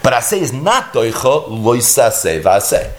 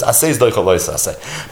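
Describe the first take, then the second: First: "not" lifted with a rise and leaned on; stress on not. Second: Said in the usual way. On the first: Shown as a demonstration. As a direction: push the word "not" to set the exception apart. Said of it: "exception contrasted with the rule". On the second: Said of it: "rule stated, then its exception".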